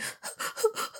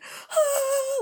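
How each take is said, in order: First: Quiet, breathy little sobs; short soft whimpering puffs; small sobs. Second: Long high-pitched mock wail; La Llorona wail. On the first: Showing viewers what her crying wasn't, small quiet sobs. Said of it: "I'm not crying like". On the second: Showing viewers how hard she cried, long high wail. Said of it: "like La Llorona crying". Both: Shown as a demonstration.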